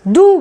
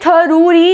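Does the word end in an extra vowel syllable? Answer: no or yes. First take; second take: no; yes. First: The word ends cleanly with no extra syllable. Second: The word ends with an added extra syllable. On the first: The speaker calls it right. "दू डू बोलेंगे" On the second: The speaker calls it wrong. "थरूरी ऐसे करके नहीं बोलेंगे"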